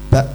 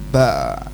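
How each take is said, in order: First: The sound stops abruptly at the end. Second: The sound keeps flowing at the end. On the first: The speaker calls it right. "harus terhenti" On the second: The speaker calls it wrong. "tidak boleh"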